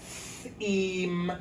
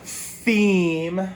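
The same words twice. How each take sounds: First: Said in the usual way. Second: THEME said louder with a rising tune; teacher models Theme for the class, loud and lifting; clear model word. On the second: Shown as a demonstration. Teacher says Theme to students, louder and rising.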